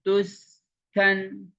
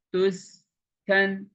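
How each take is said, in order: Both takes have the same delivery.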